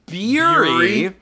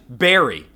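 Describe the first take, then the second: First: The first vowel sounds like in 'beer'. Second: The first vowel sounds like in 'bear'. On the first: The speaker calls it wrong. "pronouncing it to rhyme with fury" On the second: The speaker calls it right. "The word berry is pronounced berry slash berry"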